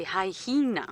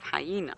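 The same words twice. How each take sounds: First: "hyena" as high-hee-na, slow and stressed; extra H. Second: Said in the usual way. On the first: Shown as a demonstration. Guide showing how South Africans say it, "hyena" with an added H. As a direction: put a clear second H before the "ee" of "hyena". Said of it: "put an additional H in that word". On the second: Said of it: "instead of hyena".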